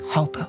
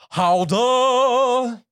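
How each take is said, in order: First: It is said quietly and softly. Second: It is said loudly and boldly.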